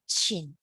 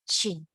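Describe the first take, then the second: No difference in how they are said.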